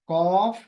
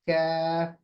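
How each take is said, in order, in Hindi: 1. यह शब्द मोटा और भारी बोला जाता है। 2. यह शब्द बारीक और हल्का बोला जाता है। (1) "कॉफ मोटा पढ़ना ये भी गलत है" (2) "इसको बारीक पढ़ना है"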